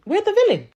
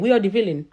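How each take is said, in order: First: "We're the villain" thrown up high, exasperated; emphatic repeat. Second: Said in the usual way. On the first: Real, not acted. Vlogger repeating to commenters, high and exasperated. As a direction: hit "We're" hard and high, incredulous.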